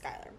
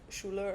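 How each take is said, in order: First: The name begins with a 'sky' sound. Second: The name begins with a 'shoo' sound. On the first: "I'm going to pronounce it Skylar" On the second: "if it's supposed to be pronounced like Schuler or something, that sounds very German"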